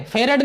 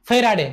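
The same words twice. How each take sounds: First: फेरड cut to two syllables, fe-rad; students' mispronunciation. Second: फेराडे with a long aa and a final e; correct pronunciation. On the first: Teacher showing students' mistake, फेरड shortened to fe-rad. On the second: Teacher correcting students on the unit's name, फेराडे said in full as fe-raa-de. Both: Shown as a demonstration. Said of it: "कुछ बच्चे फेरड बोल देते हैं".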